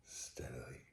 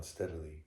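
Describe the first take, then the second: First: Barely audible, lower whisper; stealthy whisper. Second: Said in the usual way. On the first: A narrator's reading. Madman easing the door open in darkness, whispering. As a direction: whisper it, creeping in.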